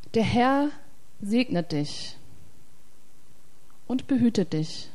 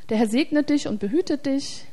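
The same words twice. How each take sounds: First: The sentence is read at a slow pace. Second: The sentence is read at a quick pace. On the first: "Jetzt lese ich das mal langsam" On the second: "Ich lese einen Vers mal normal schnell"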